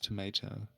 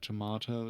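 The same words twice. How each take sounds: First: It is said with an American 'tomay-to' vowel. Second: It is said with a British 'tomah-to' vowel. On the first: The speaker calls it right. "it's tomato" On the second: The speaker calls it wrong. "not uh, tomato"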